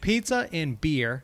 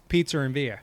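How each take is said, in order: First: The R at the end of beer is pronounced. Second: The R at the end of beer is dropped. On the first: It imitates how the other hosts talk. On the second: It is the speaker's own way of talking.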